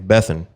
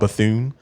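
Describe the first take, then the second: First: The last vowel is reduced and barely pronounced. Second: The last vowel is full and clearly pronounced. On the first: This is how people in South Carolina say the name. "somebody from South Carolina say her name, and they would say" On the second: This is the usual way the name is said. "We we always pronounce her name"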